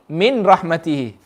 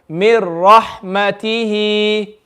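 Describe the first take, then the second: First: The n is clearly pronounced before the r. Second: The n merges fully into the following r. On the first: The speaker calls it wrong. "They'll read it like this" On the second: The speaker calls it right. "no gunna and no sound of the noon"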